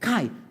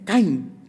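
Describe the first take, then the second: First: The word ends on a plain vowel. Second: The word ends with an ng sound. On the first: The speaker calls it right. "tapi kai" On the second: The speaker calls it wrong. "tidak usah ada ng-nya di belakang"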